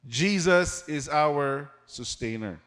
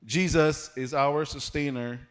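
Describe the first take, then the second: First: Slow, weighty statement of the sermon point; slow emphatic point. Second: Said in the usual way. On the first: Shown as a demonstration. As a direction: lay it down slowly so it sinks in. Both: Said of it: "That's our first point".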